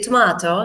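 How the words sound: It is said with a British pronunciation. "People from the British people at school usually say tomato"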